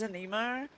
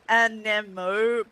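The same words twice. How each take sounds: First: It is said in a broad Australian accent. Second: It is said with careful standard pronunciation. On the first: "with my accent, I keep naturally pronouncing it as" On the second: "I know it's pronounced uh"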